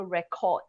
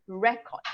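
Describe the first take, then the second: First: "record" with the weight on the last syllable; second-syllable stress. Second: "record" with a strong, raised first syllable; first-syllable stress. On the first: Teacher demonstrating the verb, "record" stressed late. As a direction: save the push for the end of "record". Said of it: "you will stress on the second syllable". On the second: Teacher demonstrating the noun, "record" stressed early. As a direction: punch the start of "record". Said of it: "you will stress on the first syllable". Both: Shown as a demonstration.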